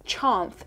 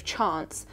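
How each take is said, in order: First: "chance" ending in a soft TH, like "chanth"; imitated mispronunciation. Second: Said in the usual way. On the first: Reading a comment on her singing, "chance" said as "chanth". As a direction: say "chance" with a TH in place of the final S. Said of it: "the way she sings chance instead of chance". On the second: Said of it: "instead of chance".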